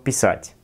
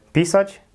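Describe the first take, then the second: First: Pisać stressed on the last syllable, pi-SAĆ; correct Russian stress. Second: Pisać stressed on the first syllable, PI-sać; wrong stress. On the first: Teacher giving the right Russian stress. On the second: Teacher warning students off the wrong stress. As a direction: hit PI in pisać, slowly. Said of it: "nie mówcie". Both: Shown as a demonstration.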